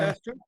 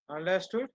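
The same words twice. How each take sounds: First: Higher, brighter rising "Understood?" to rouse the class; prompting check. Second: Said in the usual way. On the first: Real, not acted. Teacher asks students whether they follow, prompting. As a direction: push the class for an answer with a lifted "Understood?". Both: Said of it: "teacher checks class understanding".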